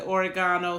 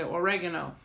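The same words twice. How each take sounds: First: "oregano" as or-i-GAH-no; oregano, stressed GAH. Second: "oregano" as o-REG-uh-no; oregano, stressed REG. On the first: Showing listeners how some say it, "oregano" as or-i-GAH-no. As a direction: stress the third syllable of "oregano", a long AH. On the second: Showing listeners how others say it, "oregano" as o-REG-uh-no. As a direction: stress the second syllable of "oregano", a short E. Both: Shown as a demonstration. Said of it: "some people say oregano".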